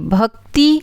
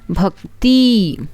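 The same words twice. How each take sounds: First: The final vowel is short. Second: The final vowel is long. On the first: The speaker calls it right. "छोटी ई का बड़ी ई" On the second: The speaker calls it wrong. "छोटी ई का बड़ी ई"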